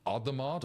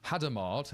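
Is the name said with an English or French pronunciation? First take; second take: French; English. First: The name is said the French way. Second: The name is said the English way.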